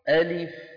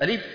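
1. تُقال الكلمة بوتيرة متساوية ومتزنة. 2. تُقال الكلمة بعجلة، وتُخطف حروفها. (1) "ألف هكذا تنطق، ألف، انتبهنا بهذه السرعة" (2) "بعض اخواننا بيقولوا ألف لا، ألف لا، يخطفوه"

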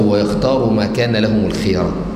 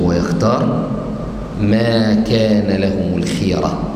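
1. "ويختار" تتصل مباشرة بالكلمات التالية. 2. يوجد وقف بعد "ويختار".

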